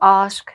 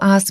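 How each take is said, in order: First: The vowel is said the British way. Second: The vowel is said the American way.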